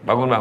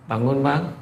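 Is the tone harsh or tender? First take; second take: harsh; tender. First: It is said roughly and impatiently. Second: It is said softly and tenderly.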